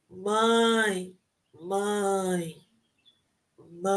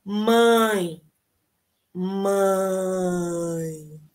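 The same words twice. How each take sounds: First: Mãe said with the nose pinched, fading softer; mãe with nose pinched, fading away; nose held. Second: Said in the usual way. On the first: Shown as a demonstration. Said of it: "Tampa o nariz". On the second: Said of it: "Agora sem tampar".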